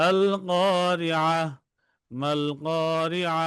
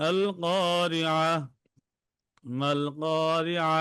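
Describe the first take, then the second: Both takes have the same delivery.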